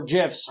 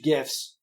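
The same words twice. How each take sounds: First: "gifs" with a soft g, like "jiffs". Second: "gifs" with a hard g, as in give. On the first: Host offering listeners the other pronunciation, soft-g "gifs". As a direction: say "gifs" starting with a j sound. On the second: Host offering listeners one pronunciation, hard-g "gifs". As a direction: say "gifs" starting with a hard g sound. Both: Shown as a demonstration. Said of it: "whatever you wanna call them".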